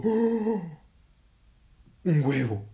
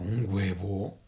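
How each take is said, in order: First: High, loud gasp of wonder; amazed exclamation. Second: Drawn-out rising disbelief; startled question. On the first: Heron finds egg under her belly, amazed. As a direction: exclaim loudly, thrilled and amazed. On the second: Heron learns she will lay, incredulous question. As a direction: ask it incredulously, rising at the end. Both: Acted.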